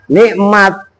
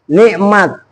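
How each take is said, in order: The two takes are said the same way.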